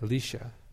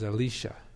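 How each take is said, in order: No difference in how they are said.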